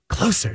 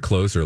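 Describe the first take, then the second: First: The middle consonant is a soft s sound. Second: The middle consonant is a buzzing z sound. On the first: It means nearer to something. "Closer to the action" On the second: It means someone who closes something. "like I'm closing the door on this trash"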